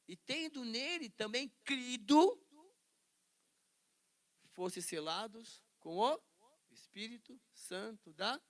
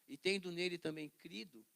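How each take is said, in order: First: It is read at a slow pace. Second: It is read at a quicker pace.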